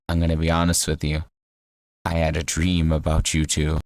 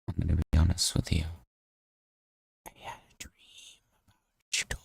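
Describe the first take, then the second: First: It is said at a louder volume. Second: It is said quietly and low.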